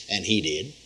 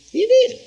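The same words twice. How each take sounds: First: Said in the usual way. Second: Much higher, ringing "He did"; triumphant exclamation. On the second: Real, not acted. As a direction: shout the victory.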